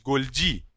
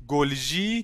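First: گلجی said as goldji with a hard j sound; current pronunciation. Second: گلجی said as golzhi with a soft zh sound; older pronunciation. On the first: Teacher to students, giving today's pronunciation, goldji. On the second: Teacher to students, showing the older pronunciation, golzhi. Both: Shown as a demonstration. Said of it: "تلفظش بعداً شده".

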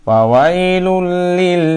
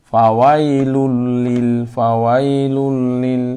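First: ফাওয়াইলুল লিল with the doubled lam clipped short and a stressed, drawn-out লিল; wrong ফাওয়াইলুল লিল, stressed লিল; wrong pronunciation demo. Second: ফাওয়াইলুল লিল slowly, with the doubled lam held before লিল; correct pronunciation. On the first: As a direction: show the mistake, leaning on লিল. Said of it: "ফাওয়াইলুল লিল বলা যাবে না". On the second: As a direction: model the right form clearly and slowly. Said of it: "জড়তাকে ছেড়ে দিয়া উচ্চারণ করতে হবে". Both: Shown as a demonstration.

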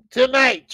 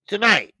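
First: Tonight pitched higher and punched louder; second tonight, hyped up; bigger tonight. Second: Tonight stressed firmly; first tonight, firm but held back; emphatic tonight. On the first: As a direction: hammer the word tonight home. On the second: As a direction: call out tonight to the viewers. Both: Real, not acted. Repeating the show time for emphasis.

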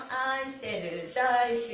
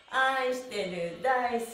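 The two takes are said the same way.

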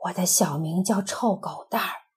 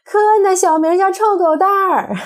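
First: Hush, share a secret name; secret whisper. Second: Higher, louder gleeful shout. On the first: Acted. Doctor whispering a secret nickname to a child, whispered. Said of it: "悄悄地告诉来咨询的孩子". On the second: Retold or imitated. Child shouting the doctor's secret nickname, triumphant yell. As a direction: yell it out to tease. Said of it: "马上喊起来".

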